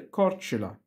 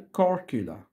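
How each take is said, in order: First: The middle consonant is a 'ch' sound. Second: The middle consonant is a 'k' sound. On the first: This is the local Croatian pronunciation. "في اللغة الكرواتية اسم الجزيرة ده بيتنطق كورتشولا" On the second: This is the English pronunciation. "لكن في الإنجليزي بيتنطق كوركولا"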